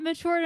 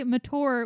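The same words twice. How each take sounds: First: Said in the usual way. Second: MATURE with a hard t, "ma-toor". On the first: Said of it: "you can say mature". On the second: Shown as a demonstration. Teasing the co-host's word, MATURE said "ma-toor". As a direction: say mature with no "ch" sound. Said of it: "say mature without smiling".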